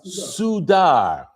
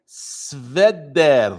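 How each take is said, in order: First: The letter after s is a u vowel. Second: The letter after s is a v consonant. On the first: The speaker calls it wrong. "Don't read the vav as a u" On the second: The speaker calls it right. "Read it as a v"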